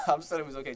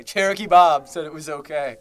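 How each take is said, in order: First: Said in the usual way. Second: Cherokee Bob announced louder; mock-solemn louder announcement; louder mock proclamation. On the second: Shown as a demonstration. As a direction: proclaim it like a joke password.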